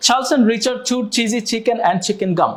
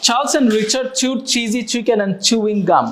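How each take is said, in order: First: A slow, careful tongue twister demo; slow demo read. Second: Slow demo read. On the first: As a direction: say each word slowly and evenly. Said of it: "ব্যাপারটা এরকম হবে শুনতে". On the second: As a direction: read it out slowly so the class can follow. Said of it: "দেখতে শুনতে এরকম লাগবে". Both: Shown as a demonstration.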